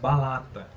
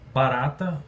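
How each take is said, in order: First: The middle consonant is an L sound. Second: The middle consonant is an R sound. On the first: The speaker calls it wrong. "troco por balata" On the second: The speaker calls it right. "barata eu troco"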